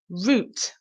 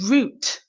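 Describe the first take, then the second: First: It rhymes with 'boot'. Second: It rhymes with 'boot'.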